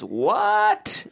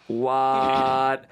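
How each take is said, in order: First: "what?" shot up very high and drawn out; stretched squeal. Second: Said in the usual way. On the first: Shown as a demonstration. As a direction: squeak "what?" as the letters pile up. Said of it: "until it becomes". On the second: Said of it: "Letters keep getting added".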